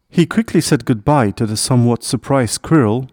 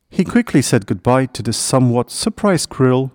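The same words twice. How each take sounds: The two takes are said the same way.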